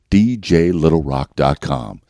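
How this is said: It is said in a neutral Middle American accent.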